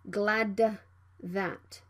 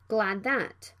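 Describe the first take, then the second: First: The D is fully released before TH. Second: The D is held without release before TH. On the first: The speaker calls it wrong. "Don't say glad that" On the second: The speaker calls it right. "Plosive consonant D right before the consonant can be unreleased"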